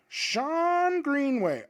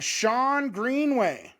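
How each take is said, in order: First: Drawn-out name. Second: Said in the usual way. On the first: Shown as a demonstration. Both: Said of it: "let me find Sean Greenway".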